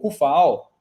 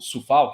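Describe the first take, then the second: First: The name begins with a K sound. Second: The name begins with a TS or S sound. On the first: The speaker calls it wrong. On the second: The speaker calls it right.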